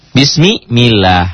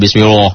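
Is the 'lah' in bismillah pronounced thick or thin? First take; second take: thin; thick. First: The 'lah' is thin, with an 'a' vowel. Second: The 'lah' is thick, sounding like 'loh'. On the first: The speaker calls it right. "jadi tipis" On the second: The speaker calls it wrong. "Enggak bismillah"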